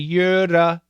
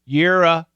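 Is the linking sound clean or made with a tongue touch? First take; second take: tongue touch; clean. First: The tongue touches the roof for the linking sound. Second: The linking sound is made without any tongue touch. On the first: The speaker calls it wrong. "do not let your tongue touch when you're linking right here. Don't say yira" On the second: The speaker calls it right.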